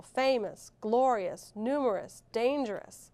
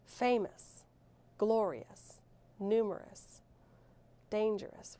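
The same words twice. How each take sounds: First: Famous, glorious, numerous, dangerous each hit on the first syllable; stress on first syllable. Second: Said in the usual way. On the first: Shown as a demonstration. Teacher showing the accented syllable in famous, glorious, numerous, dangerous, first syllable stressed. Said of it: "Right, the first syllable". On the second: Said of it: "which syllable is accented in each word".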